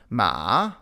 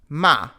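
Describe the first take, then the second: First: The pitch dips down and then rises. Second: The pitch drops sharply from high to low. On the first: "the falling then rising tone" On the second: "the falling tone"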